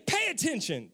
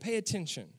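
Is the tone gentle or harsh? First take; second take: harsh; gentle. First: It is said in a harsh, scolding tone. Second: It is said in a gentle, loving tone. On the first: The listener is being scolded. The speaker calls it wrong. "he's not saying it like that" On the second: The listener is lovingly advised to refocus. The speaker calls it right. "it just means that you're focused on the wrong thing"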